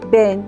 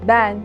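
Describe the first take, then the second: First: The e is closed, with the mouth narrower. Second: The e is open, with the mouth wider. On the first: The speaker calls it wrong. "Bu kelimeleri şu şekilde söyleseydim" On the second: The speaker calls it right. "Bu seste ağız biraz daha açılır"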